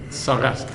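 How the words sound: The word ends with an S sound.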